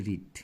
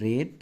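First: রিড with an ee vowel, like "reed"; participle pronunciation as taught. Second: রেড with a short e, like "red"; past-tense pronunciation. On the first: Teacher giving the participle's sound, রিড with an ee vowel. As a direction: say রিড to rhyme with "need". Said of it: "পিপির উচ্চারণ". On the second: Teacher giving the past form's sound, রেড with an e vowel. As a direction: say রেড to rhyme with "bed". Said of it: "এটার পাস্টের উচ্চারণটা হচ্ছে". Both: Shown as a demonstration.

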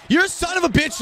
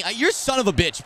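First: Angry shout. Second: Said in the usual way. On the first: Real, not acted. Cursing his player, shouting it.

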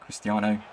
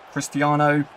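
First: Said in the usual way. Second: The name called out high and loud; rising excited call of Cristiano. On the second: Real, not acted. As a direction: start the stadium chant. Name repeated louder as chant.

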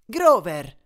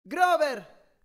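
First: Loud, sharp reproach; exasperated call, falling at the end; scolding. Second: High, long call into a cavern; raised-pitch distant hail; echoing shout. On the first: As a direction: scold him by name, loudly. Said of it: "lo rimproverò Annabeth". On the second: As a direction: call his name so it carries. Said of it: "gridai facendo riecheggiare la mia voce". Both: A narrator's reading.

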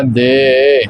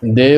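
First: ਦੇ drawn out, swayed a little; correct pronunciation. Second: ਦੇ as a plain brief de; wrong pronunciation. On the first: Teacher showing learners the reading, long gliding ਦੇ. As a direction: stretch ਦੇ with a slight glide. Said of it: "ਥੋੜ੍ਹਾ ਹਿਲਾ ਜੀ ਕੇ ਇਸ ਨੂੰ ਉਚਾਰਨ ਕਰਨਾ". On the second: Teacher warning learners of a misreading, ਦੇ said plainly and briefly. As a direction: say ਦੇ quickly with a plain e. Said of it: "ਦੇ ਉਚਾਰਨ ਨਹੀਂ ਕਰਨਾ". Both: Shown as a demonstration.

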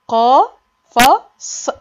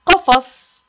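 First: قافص drawn very slow and louder, the قا held long; stretched sounding out. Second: Said in the usual way. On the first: Shown as a demonstration. Teacher stretching قفص so kids hear the ق first. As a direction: pull the first syllable of قافص way out. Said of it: "ها، جه فين؟". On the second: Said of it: "تالت صورة دي إيه؟".

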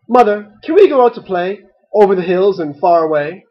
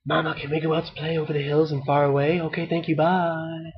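First: Said in the usual way. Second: Fast, hushed sneaky whisper. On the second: A narrator's reading. Ducklings to their sleeping mother, whispered. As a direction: rush it under your breath so she stays asleep. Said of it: "They whispered to her".

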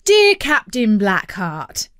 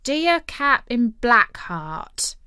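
First: Loud, slow, declaimed salutation; dad composing a letter. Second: Slow, halting read-out; Ben reading aloud. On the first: Dad replies to the pirate captain, declaiming. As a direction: announce it grandly, slowly. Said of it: "he began". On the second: Ben reads the letter to the captain, slowly. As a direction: sound out the salutation slowly, less forcefully. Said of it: "And Ben started to read". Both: A narrator's reading.

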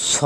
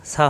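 First: "স" as full s with rounded aw; heavy sad. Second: "সা" with light s and open aa; wrong thin sa. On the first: Teacher shows the letter sad, rounded heavy "স". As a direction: round the vowel after a heavy "স". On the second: Teacher shows the mistake, thin "সা" with open aa. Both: Shown as a demonstration. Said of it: "সা হবে না".

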